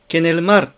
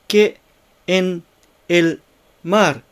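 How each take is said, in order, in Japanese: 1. 単語がつながって、一つのまとまりになっています。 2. それぞれの単語は、間をあけて別々に言われています。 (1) "ケネルマルとなっています" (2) "単語一つ一つを読むと、ケ、エン、エル、マル"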